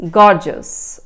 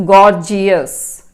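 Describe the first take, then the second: First: "gorgeous" said as GOR-jus, two syllables; "gorgeous" with a short jus ending, no ee; dictionary pronunciation. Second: "gorgeous" said as gor-jee-us, three syllables; "gorgeous" with an extra ee before the ending; wrong pronunciation. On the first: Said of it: "it is pronounced as gorgeous". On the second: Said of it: "this is not pronounced as gorgeous". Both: Shown as a demonstration.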